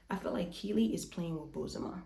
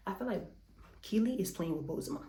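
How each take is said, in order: First: Said in the usual way. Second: Breathless and winded; out of breath. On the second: Real, not acted. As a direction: talk while catching your breath. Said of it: "I'm so much out of breath".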